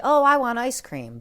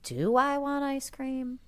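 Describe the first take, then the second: First: Higher, louder eager blurt of "Oh, I want ice cream"; a kid spotting ice cream; eager craving. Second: Higher, pondering "Do I want ice cream?"; questioning self-check. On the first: Retold or imitated. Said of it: "that first thought says". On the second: Shown as a demonstration. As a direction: pause and question the craving. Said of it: "stop and examine that".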